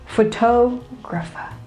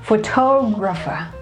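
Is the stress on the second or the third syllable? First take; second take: second; second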